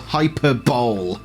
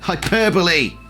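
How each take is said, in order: First: The word ends in one syllable, 'bowl'. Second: The word ends in four syllables, 'buh-lee'. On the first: The speaker calls it wrong. "as I used to think it was pronounced" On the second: The speaker calls it right. "it's called hyperbole"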